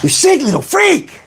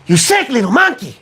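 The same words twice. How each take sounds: First: Much higher, strained cartoon snarl; Ren impression. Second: High, strained Ren from Ren and Stimpy; shrill cartoon chihuahua rant; Ren impression. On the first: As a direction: screech it like Ren. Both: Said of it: "sounds like Ren from Ren and Stimpy".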